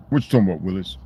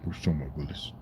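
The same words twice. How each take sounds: First: The catchphrase said again at normal volume, lightly voiced; light playful catchphrase. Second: Catchphrase muttered much softer, half to himself; quiet mock catchphrase aside. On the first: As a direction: throw the TV line out playfully. Catchphrase repeated out loud. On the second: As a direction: mumble the line under your breath.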